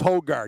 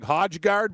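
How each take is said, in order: First: The J is silent in the name. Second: The J is pronounced as a consonant. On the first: The speaker calls it right. "with the silent J" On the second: The speaker calls it wrong. "it'll look like Højgaard"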